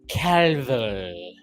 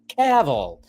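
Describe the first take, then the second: First: The final L sound is drawn out and heavy. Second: The final L sound is short and light. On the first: The speaker calls it wrong. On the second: The speaker calls it right.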